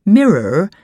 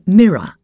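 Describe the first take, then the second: First: "mirror" with the final R sounded; R pronounced. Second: "mirror" ending in an open uh, no R; dropped R. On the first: Reader showing the form before the change, "mirror" with R sounded. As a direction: say "mirror" ending in a clear r. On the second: Reader teaching the Queen's English, "mirror" with dropped R. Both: Shown as a demonstration. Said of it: "drop the R from words ending in er and or".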